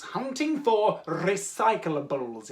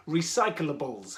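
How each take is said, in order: First: "recyclables" very slow with a trilled opening R; rolled R. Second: "Recyclables" said slowly and low, each syllable given room; careful pronunciation. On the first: Host showing children the difficult word, rolled R. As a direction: roll the R hard at the start of "recyclables". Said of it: "You have to roll the R". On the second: Host retrying a difficult word, careful pronunciation. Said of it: "very difficult word to say". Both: Shown as a demonstration.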